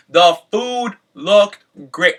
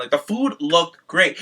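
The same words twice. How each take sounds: First: Slow and louder, leaning on looked; "looked" drawn out and stressed; emphatic repeat. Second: Said in the usual way. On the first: Shown as a demonstration. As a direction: savor each word of it.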